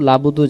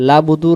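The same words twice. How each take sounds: Both takes have the same delivery.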